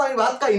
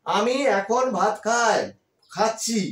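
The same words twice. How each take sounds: First: Said in the usual way. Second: "এখন" stressed, the whole line slowed right down; the correct version, spelt out slowly for pupils; slow model sentence. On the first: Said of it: "না, সেভাবে বলি না". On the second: Shown as a demonstration. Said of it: "আমি কি বলি". ("এখন" শব্দে জোর দিয়ে ধীরে বলা)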